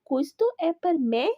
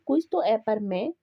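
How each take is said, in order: First: It is said with a questioning tune. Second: It is said with a plain statement tune. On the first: It asks whether this is for me. The speaker calls it right. "लेकिन अगर आप कहेंगे ना ... कि क्या ये मेरे लिए है" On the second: It states that this is for me. The speaker calls it wrong. "जैसे ये एक बात है"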